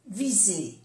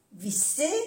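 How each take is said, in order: First: "viser" falling, with a voiced z; soft Z. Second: "visser" rising, with an unvoiced s; double S. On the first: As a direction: say "viser" with a buzzing z. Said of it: "se pronuncia como una Z suave". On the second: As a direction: say "visser" with a hiss in the middle. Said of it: "una S o doble S". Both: Shown as a demonstration.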